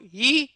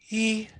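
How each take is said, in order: First: The vowel is voiced cleanly, neither airy nor tight. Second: The vowel is voiced with lots of audible air. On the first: The speaker calls it right. "That's le lute vocale... the sweet spot between pressed and breathy" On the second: The speaker calls it wrong. "Here's the breathy"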